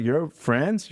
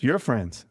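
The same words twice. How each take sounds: First: "friends" rising as a challenge; indignant question. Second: "friends" falling as a verdict; indignant statement. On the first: Man mad at his cousin, retold indignant question. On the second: Man mad at his cousin, retold indignant statement. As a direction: land "friends" with a falling, final tune. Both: Retold or imitated. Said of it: "I was mad at him".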